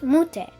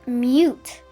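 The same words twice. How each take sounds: First: It is said with the Toki Pona pronunciation. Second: It is said with the English pronunciation. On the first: "in Tokiponet, it's pronounced mute" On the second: "In English, it's pronounced mute"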